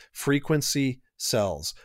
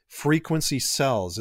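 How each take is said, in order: First: Frequency sells, slow with weight on Frequency; slow emphatic slogan. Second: Said in the usual way. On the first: Shown as a demonstration. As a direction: drive the slogan home slowly, leaning on Frequency. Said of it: "Frequency sells is what we used to say". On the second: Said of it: "is what we used to say".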